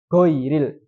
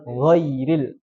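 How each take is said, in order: First: The word begins with a hard g sound. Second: The word begins with a throaty gh sound. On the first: The speaker calls it wrong. "dia ganti menjadi huruf G" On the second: The speaker calls it right. "Ya harusnya kan"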